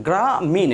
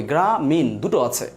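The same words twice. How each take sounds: First: গ্রা and মিন said as two separate syllables; teacher showing the basic way; syllables split. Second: গ্রা and মিন said slowly and apart; teacher repeating the split; syllables split. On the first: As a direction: break গ্রামীণ into গ্রা and মিন. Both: Shown as a demonstration. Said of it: "এটা basic way".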